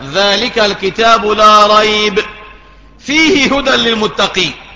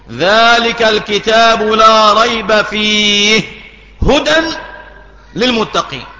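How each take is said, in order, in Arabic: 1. توجد وقفة مباشرة بعد كلمة ريب. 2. توجد وقفة مباشرة بعد كلمة فيه. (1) "فهنا العلامة ذلك الكتاب لا ريب عليها علامة" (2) "الوقف على الكلمة الثانية"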